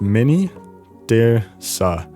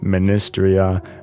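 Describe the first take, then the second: First: The name ends with the sounds 'tirsa'. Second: The name ends with the sounds 'tria'. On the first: The speaker calls it right. "You pronounce it" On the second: The speaker calls it wrong. "are both wrong"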